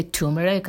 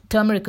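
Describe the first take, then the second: First: Turmeric said as TOO-meh-rik; "turmeric" with no r in the first syllable, TOO-meric; variant TURMERIC pronunciation. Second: Turmeric with "tur" as in "turn"; "Turmeric" said TER-meh-rik; correct TURMERIC pronunciation. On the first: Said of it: "but many people say". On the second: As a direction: say "Turmeric" with an r-coloured first syllable, TER-muh-rik. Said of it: "is a correct, uh, way of saying it". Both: Shown as a demonstration.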